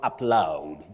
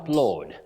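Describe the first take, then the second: First: The vowel sounds like 'ow' in loud. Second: The vowel sounds like 'aw' in law. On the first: The speaker calls it wrong. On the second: The speaker calls it right. "the sound in this case for A U is O"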